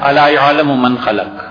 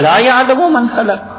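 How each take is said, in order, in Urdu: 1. یہ سپاٹ اور سادہ انداز میں پڑھا گیا ہے۔ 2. یہ جذبے اور سوالیہ لہجے کے ساتھ پڑھا گیا ہے۔ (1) "ایک ہے یہ" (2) "اور ایک پڑھتا ہے"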